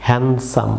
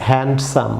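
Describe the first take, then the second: First: হ্যান্ডসাম as "han-sum", no D; silent D. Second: হ্যান্ডসাম with the D sounded, "hand-sum"; wrong pronunciation. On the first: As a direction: drop the D in হ্যান্ডসাম. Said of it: "এটি হবে". (হ্যান্ডসাম-এ ডি না বলে, "হ্যানসাম") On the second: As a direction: put a hard D before the S in হ্যান্ডসাম. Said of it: "সম্পূর্ণ ভুল pronunciation". (হ্যান্ডসাম-এ ডি উচ্চারণ করে) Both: Shown as a demonstration.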